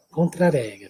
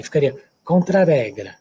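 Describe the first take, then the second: First: "Contra-regra" with a São Paulo tap r, as "contraréGRA"; São Paulo accent. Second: "contra-regra" with a single tap R, like "contrarégra"; wrong single R. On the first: Teacher imitating the São Paulo way. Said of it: "o paulistano da moda". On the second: Teacher showing the wrong single-R reading. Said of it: "sem duplicar o R". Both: Shown as a demonstration.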